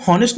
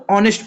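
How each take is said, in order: First: हॉनेस्ट said with a sounded h at the start; wrong pronunciation. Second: ऑनेस्ट said with a silent h, starting on the open o; correct pronunciation. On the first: Teacher shows students the wrong reading, h sounded. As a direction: pronounce हॉनेस्ट with a breathy h before the o. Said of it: "यहाँ पे हॉनेस्ट नहीं". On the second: Teacher shows students the right reading, silent h. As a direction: say ऑनेस्ट with no h, straight into the vowel. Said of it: "इसको ऑनेस्ट पढ़ते हैं". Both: Shown as a demonstration.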